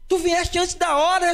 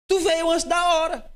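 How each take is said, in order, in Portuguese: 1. É dita num tom assustado, com medo. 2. É dita num tom plano e calmo. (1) "É uma entonação de medo" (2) "Mas não, obviamente, com essa entonação aqui"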